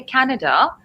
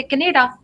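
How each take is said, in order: First: Said in the usual way. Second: "Canada" mispronounced with the stress moved to the middle syllable; non-native pronunciation. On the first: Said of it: "depending on what is your background". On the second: Shown as a demonstration. Teacher showing learners a first-language slip, "Canada" mispronounced as ca-NAY-da. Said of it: "what's your first language".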